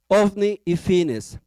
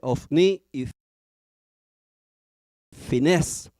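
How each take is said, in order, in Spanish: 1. El acento cae en la primera sílaba de Fines. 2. El acento cae en la última sílaba de Fines. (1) "yo se lo digo sin, sin el acento" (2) "se lo tilden"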